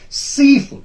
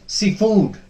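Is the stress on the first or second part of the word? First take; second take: first; second. First: The stress is on the first part. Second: The stress is on the second part. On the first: The speaker calls it right. "The first part will be stressed" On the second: The speaker calls it wrong. "We will not pronounce it as seafood. No, that is wrong"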